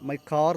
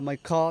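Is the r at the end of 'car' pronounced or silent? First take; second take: pronounced; silent. First: The final r sound is pronounced. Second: The final r sound is left silent. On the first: The speaker calls it wrong. "My കാർ എന്ന് പറയില്ല" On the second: The speaker calls it right. "My കാ എന്നേ പറയുള്ളൂ"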